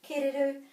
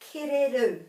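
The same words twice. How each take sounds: First: The last syllable carries no emphasis. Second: The last syllable carries the emphasis. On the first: The speaker calls it wrong. "or they might even pronounce the R correctly and say kereru" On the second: The speaker calls it right. "a bit of emphasis at the end"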